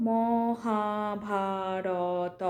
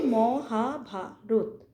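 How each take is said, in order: First: "মহাভারত" drawn out vowel by vowel, ending in an open "to"; টেনে টেনে ভুল উচ্চারণ. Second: "মহাভারত" in four short beats, closed final "rot"; সঠিক দল ভাগ. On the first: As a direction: stretch every letter of "মহাভারত" into its own long, level syllable. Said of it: "এরকমভাবে তো বলি না". ("মহাভারত" ম-হা-ভা-র-ত করে শেষ অবধি টেনে বলা) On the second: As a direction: say "মহাভারত" as mo-ha-bha-rot, beat by beat. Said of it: "আমরা কি বলি?". ("মহাভারত" চার ঝোঁকে ম-হা-ভা-রত বলা) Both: Shown as a demonstration.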